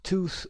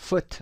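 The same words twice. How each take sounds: First: "tooth" with a drawn-out oo; teacher's long-vowel "tooth". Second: "foot" with a short oo; teacher's short-vowel "foot". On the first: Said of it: "اوی کشیده". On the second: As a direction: keep the vowel in "foot" brief. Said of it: "اوی کوتاه هست". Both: Shown as a demonstration.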